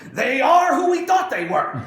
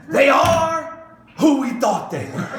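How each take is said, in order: First: Shouted, higher and louder, losing his temper at the press; the coach snapping at a reporter's stupid question; furious yell; furious outburst. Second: Shouted opening then laughing through the rest; a triumphant laughing punchline, loud start; God answering the serpent, shouting then laughing; God quoting the coach. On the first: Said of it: "freaks out and loses his mind and says". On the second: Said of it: "and so you can just see God". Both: Retold or imitated.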